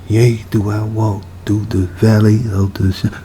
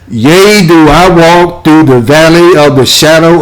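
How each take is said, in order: First: It is said quietly, in a low voice. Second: It is said loudly, in a full voice. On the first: "pretty low, so I don't want to say it out loud" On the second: "say it a little bit louder"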